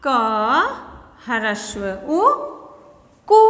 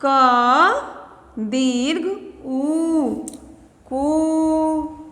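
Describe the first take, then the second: First: Slow spelling out. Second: Crawling, drawn-out क दीर्घ उ; very slow spelling out. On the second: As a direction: stretch every syllable for the children. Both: Shown as a demonstration. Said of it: "तो ये क्या हो गया".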